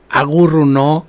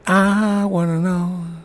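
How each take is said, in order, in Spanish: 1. Se dice todo junto, como una sola palabra que suena en español. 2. Se dice como tres palabras separadas en inglés. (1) "la gente la pedía como Agurruno" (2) "hay una parte que dice"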